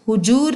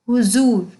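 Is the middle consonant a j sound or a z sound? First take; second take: j sound; z sound. First: The middle consonant is a j sound. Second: The middle consonant is a z sound. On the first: The speaker calls it wrong. "इसका उच्चारण हुजूर नहीं है" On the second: The speaker calls it right. "ज के नीचे एक बिंदी आएगी"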